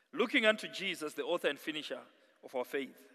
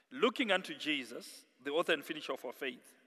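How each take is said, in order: No difference in how they are said.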